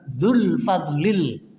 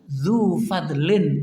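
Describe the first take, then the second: First: The second word ends with an l sound. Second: The second word ends with an n sound. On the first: The speaker calls it wrong. "bukan dzul fadlil" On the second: The speaker calls it right. "Dzu fadlin bukan dzul fadlil"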